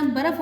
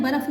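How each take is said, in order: First: बर्फ़ said barf, r and f together in one syllable; correct pronunciation. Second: बर्फ़ said baraf with an extra a between r and f; wrong pronunciation. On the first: Teacher giving students the correct barf. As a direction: clean barf. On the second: Teacher showing students the wrong baraf. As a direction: show the mistake: ba-raf. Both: Shown as a demonstration. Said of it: "बर्फ़ नहीं होता".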